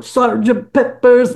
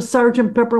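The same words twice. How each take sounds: First: Put-on English accent. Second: Said in the usual way. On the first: Band member imitating the album's English-accented vocal. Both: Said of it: "in a very English sounding voice".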